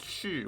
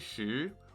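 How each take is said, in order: First: The pitch falls sharply across the syllable. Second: The pitch rises across the syllable. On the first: It means to be. "with its fourth tone to say to be" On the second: It means food or to eat. "with the second tone to mean food or to eat"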